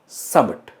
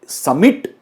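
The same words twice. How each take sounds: First: The second vowel is a light uh sound. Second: The second vowel is a full, clear vowel. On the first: The speaker calls it right. "हल्का सा आपको अ" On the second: The speaker calls it wrong. "समिट नहीं है वो"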